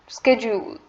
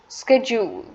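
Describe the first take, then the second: First: It is pronounced in an American English way. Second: It is pronounced in an American English way.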